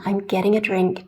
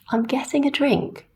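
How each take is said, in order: First: The T in 'getting' is a soft flap. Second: The T in 'getting' is a crisp T.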